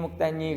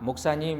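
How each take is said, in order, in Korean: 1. 이 단어는 혀가 꼬인 아이 발음으로 발음됐어요. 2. 이 단어는 표준 발음으로 또렷하게 발음됐어요. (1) "어린이들이 저를 부를 때 발음이 잘 안 되니까" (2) "목사님 이렇게 부르지 않고"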